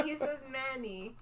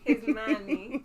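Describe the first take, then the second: First: He says money, money as mäni with an open A. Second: His money, with money said as mäni, broad A; slow Italian-tinged His money, money as mäni. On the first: Shown as a demonstration. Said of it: "Like, with the A". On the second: Retold or imitated. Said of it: "That's how my Italian friend says money".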